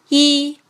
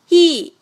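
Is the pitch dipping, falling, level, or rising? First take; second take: level; falling. First: The pitch stays high and level. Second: The pitch falls sharply from high to low. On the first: "一声平" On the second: "四声降"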